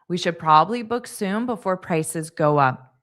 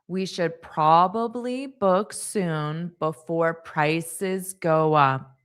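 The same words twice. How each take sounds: First: The sentence is spoken at a fast pace. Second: The sentence is spoken at a slow pace. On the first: "and then I'll say it fast" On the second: "I'll say it slow"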